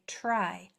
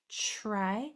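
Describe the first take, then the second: First: The word begins with a clear tr sound. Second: The word begins with a ch sound. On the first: The speaker calls it right. "We should say try" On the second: The speaker calls it wrong. "sound like try, ch, try? That is because we say this um, blend sloppily"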